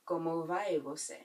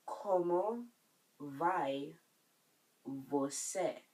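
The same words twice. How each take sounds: First: Said in the usual way. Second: "Como vai você?" with a pause after each word. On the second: Shown as a demonstration. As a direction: separate every word for learners. Teacher breaks phrase up for learners.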